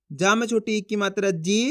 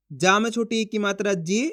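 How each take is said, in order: Both takes have the same delivery.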